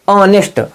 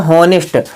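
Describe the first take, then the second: First: The word begins with a vowel, no h. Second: The word begins with an audible h sound. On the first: The speaker calls it right. "इसका शुद्ध उच्चारण होगा ऑनेस्ट।" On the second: The speaker calls it wrong. "कुछ बच्चे इसको क्या पढ़ते हैं? हॉनेस्ट, पर हॉनेस्ट गलत है।"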